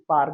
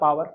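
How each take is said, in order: First: The w sound is dropped from the middle. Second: The w sound is pronounced in the middle. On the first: "डब्ल्यू silent होता है तो mostly teachers पार ही बोलते हैं" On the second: "पावर बोलना है पावर बोलो"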